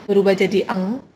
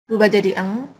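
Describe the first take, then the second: The two takes are said the same way.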